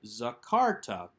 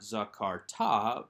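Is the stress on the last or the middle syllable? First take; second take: middle; last. First: The stress is on the middle syllable. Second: The stress is on the last syllable. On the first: The speaker calls it right. "with that accent on the second syllable" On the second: The speaker calls it wrong. "not strong or emphatic enough to draw the accent to itself, so it's not zakarta"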